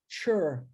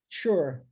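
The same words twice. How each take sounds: First: The ending is read with English sounds. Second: The same.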